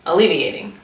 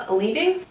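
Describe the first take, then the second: First: Alleviating. said firmly with a falling tune; confident statement. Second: Alleviating? with a doubtful rising tune; unsure question. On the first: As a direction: settle on Alleviating. decisively. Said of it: "Alleviating yourself of food guilt". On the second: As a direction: ask alleviating? as if checking the word. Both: Real, not acted.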